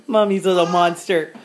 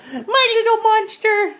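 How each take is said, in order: First: Said in the usual way. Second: High, slow cooing. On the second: Real, not acted. Mother cooing to her baby.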